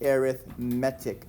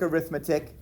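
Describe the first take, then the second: First: The main stress falls on the 'etic' part. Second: The main stress falls before the 'etic' part. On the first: The word describes a kind of sequence. The speaker calls it right. "we put this emphasis on the etic part of our word" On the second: The word names the branch of math. The speaker calls it wrong. "I know that looks like arithmetic, but it's not"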